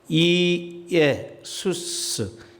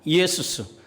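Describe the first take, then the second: First: The opening vowels are said as separate syllables. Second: The opening vowels are run together quickly.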